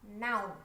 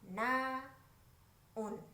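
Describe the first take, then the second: First: The word is said as one syllable. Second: The word is split into two syllables. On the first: The speaker calls it right. "satu suku kata aja" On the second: The speaker calls it wrong. "Suka selip jadi dua suku kata"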